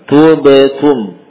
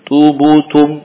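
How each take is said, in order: First: The echo after b is a neutral vowel. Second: The echo after b sounds like 'u'. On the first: The speaker calls it right. "Harusnya demikian" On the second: The speaker calls it wrong. "Tidak terpengaruh dengan dhammah pada ta sebelumnya"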